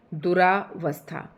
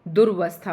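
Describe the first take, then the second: First: दुरावस्था said slowly with a long aa after du, as the mistake to avoid; दुरावस्था spoken slow and deliberate as an error; wrong spelling said. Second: दुर्वस्था with a short du and r joined straight to vasthaa; दुर्वस्था stressed, with the tune rising at the end; correct pronunciation. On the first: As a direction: drag out the wrong form दुरावस्था, du-raa-vasthaa. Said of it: "तो ऐसी गलती ना करें". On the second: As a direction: say दुर्वस्था as dur-vasthaa, no aa after du. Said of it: "दुरावस्था नहीं होता है". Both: Shown as a demonstration.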